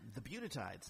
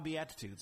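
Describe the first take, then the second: First: The word starts with a sound like 'beauty'. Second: The word starts with a sound like 'bee-at'. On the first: The speaker calls it wrong. "I mispronounced it" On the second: The speaker calls it right. "Ah, Beatitudes. Okay, there you go"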